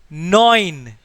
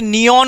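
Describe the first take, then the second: First: It is said as one syllable, noyn. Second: It is said as two syllables, nee-on. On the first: The speaker calls it right. "It is nine" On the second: The speaker calls it wrong. "Don't say it neon or anything"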